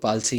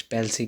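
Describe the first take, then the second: First: "पाल्सी" with a broad open first vowel; variant pronunciation. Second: "पैल्सी" with a front "a" as in "pal"; variant pronunciation. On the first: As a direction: say "पाल्सी" as PAAL-see. ("पाल्सी" को खुले "आ" स्वर से बोलें) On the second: ("पैल्सी" को "पै" वाले स्वर से बोलें) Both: Shown as a demonstration. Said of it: "इसकी प्रोनंसिएशन ठीक रखनी है".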